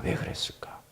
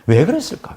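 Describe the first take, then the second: First: Voiceless, very soft whisper; hushed rhetorical echo; whispered question. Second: Said in the usual way. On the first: Real, not acted.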